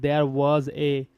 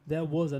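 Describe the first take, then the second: First: Each word is said separately without linking. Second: The consonant of was links into a. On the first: The speaker calls it wrong. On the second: The speaker calls it right. "That's why it will link here as well"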